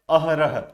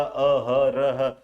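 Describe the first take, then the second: First: Said in the usual way. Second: अहरह very slowly, each syllable apart; slow, sounded-out अहरह. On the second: Shown as a demonstration. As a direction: draw out अ-ह-र-ह as if hunting for the break. Puzzling out where word splits.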